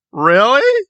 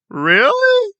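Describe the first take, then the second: First: Rising, louder disbelief; incredulous. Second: Much higher, falling "Really?"; stunned disbelief. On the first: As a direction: ask it like you can't believe it. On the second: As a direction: push it higher in utter disbelief. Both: Real, not acted. Incredulous reaction.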